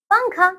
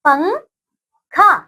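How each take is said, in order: First: Said in the usual way. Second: पंखा stretched very slowly, syllable by syllable; drawn-out spelling. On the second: Shown as a demonstration. Teacher to young pupils while writing पंखा, slow drawn-out word. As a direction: draw out पंखा slowly so children can write it. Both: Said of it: "आइए यहाँ पे लिख देते हैं हम".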